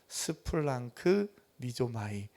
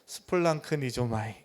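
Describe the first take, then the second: First: The word has a break in the middle. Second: The word is said joined without a break. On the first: "제가 나눠서 읽긴 했지만" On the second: "붙여서"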